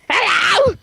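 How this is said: It is said in a loud, creepy way.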